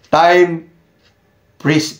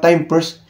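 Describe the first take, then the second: First: The second word sounds like 'freeze'. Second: The second word sounds like 'first'. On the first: The speaker calls it right. "Yung pala, time freeze pala yun" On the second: The speaker calls it wrong. "Para ng mga bata pa ngayon, time first"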